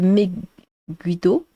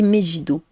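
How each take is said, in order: First: The G is pronounced hard, like gue. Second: The G is pronounced soft, not like gue. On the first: The speaker calls it right. "mon pseudo se prononce euh, Meguido" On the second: The speaker calls it wrong. "souvent on me dit Megido"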